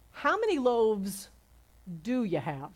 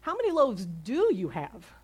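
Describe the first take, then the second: First: "do" set apart after a pause; stress on DO. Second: "do" punched within the running question; stress on DO. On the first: Preacher quotes Jesus's question, stress on "do". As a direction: lean on the word "do". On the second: Preacher repeats Jesus's question, stress on "do". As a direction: hit "do" hard and stretch it. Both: Shown as a demonstration. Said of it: "My emphasis is on do".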